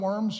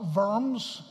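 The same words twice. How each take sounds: First: It is said with an English pronunciation. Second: It is said with a German pronunciation. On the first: It refers to the animals. "We're not talking about a diet of worms" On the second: It refers to the city. "properly pronounced Worms in German"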